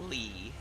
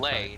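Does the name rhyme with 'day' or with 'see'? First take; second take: see; day. First: The name is said with an 'ee' vowel. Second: The name is said with an 'ay' vowel. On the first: The speaker calls it wrong. "not Lee" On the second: The speaker calls it right. "Lay, not Lee"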